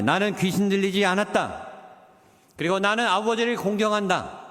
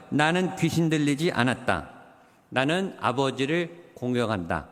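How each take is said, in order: First: Firm, confident declaration; more boldly. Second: Calm and unexcited. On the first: Shown as a demonstration. Pastor showing the congregation how to answer boldly. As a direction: stand tall and state it plainly. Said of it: "더 당당하게 말하세요". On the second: Retold or imitated. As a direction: answer without a trace of agitation. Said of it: "전혀 흥분되지 않은, 그리고 침착하고 차분하게".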